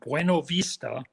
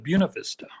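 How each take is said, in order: First: It is said the usual standard way. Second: It is said the local Iowa way. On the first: "Buena Vista gets turned into" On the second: "gets turned into Buena Vista"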